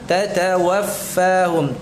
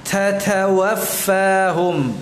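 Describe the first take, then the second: First: The ta sounds carry only a light breath. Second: The ta sounds carry a strong, audible breath. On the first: The speaker calls it right. "yang benar" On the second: The speaker calls it wrong. "Aliran nafasnya tampak dengan jelas"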